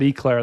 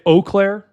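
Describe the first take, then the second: First: The name begins with a short 'eh' sound. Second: The name begins with a clear 'oh' sound. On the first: The speaker calls it wrong. "Oh no, I said Eclair. That's not good" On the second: The speaker calls it right. "how do I say it? Eau Claire, like that"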